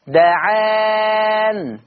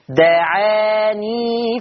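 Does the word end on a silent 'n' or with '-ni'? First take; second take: silent n; -ni. First: The word ends on a silent 'n'. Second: The word ends with a '-ni' sound. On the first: The reciter stops on this word. "هيقف بسكون النون" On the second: The reciter joins it to the next word. "لما توصل هيحط ياء"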